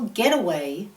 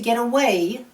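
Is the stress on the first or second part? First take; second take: first; second. First: The stress is on the first part. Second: The stress is on the second part. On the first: It is a noun meaning a holiday place. "with compound nouns, stress the first part of the word" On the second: It is a verb meaning to leave. "with phrasal verbs, we stress the second part of the verb using a higher pitch, a louder volume, and a longer vowel"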